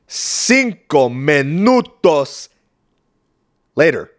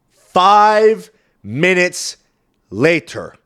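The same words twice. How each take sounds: First: Slow, drawn-out Cinco minutos, louder; mock dramatic Spanish. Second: Slow, drawn-out, louder announcer voice on Five minutes; dramatic narrator. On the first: Comedian repeating the time skip in Spanish, hammed-up. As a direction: announce it in Spanish like a telenovela. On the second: Acted. Comedian announcing the time skip, slow and dramatic. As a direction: announce the time jump like a movie trailer.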